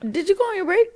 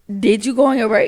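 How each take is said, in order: First: It is said at a high pitch. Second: It is said at a normal pitch.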